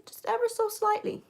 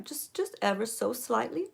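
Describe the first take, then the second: First: "ever" lifted much higher in a sing-song; lilting emphasis. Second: Said in the usual way. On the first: Shown as a demonstration. Makeup tutor coaxing viewers to go light, high lilting voice. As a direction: float the whole phrase up high to stress how little. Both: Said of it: "repeats phrase to show lightness".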